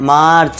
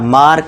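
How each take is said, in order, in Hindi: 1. यह शब्द 'ch' की ध्वनि से खत्म होता है। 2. यह शब्द 'k' की ध्वनि से खत्म होता है। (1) "सी का उच्चारण चा का करना है" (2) "मार्क नहीं"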